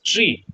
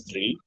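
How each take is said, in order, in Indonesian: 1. Kata itu diawali dengan bunyi t. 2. Kata itu diawali dengan bunyi th. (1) "they would pronounce it as tree" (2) "the number three"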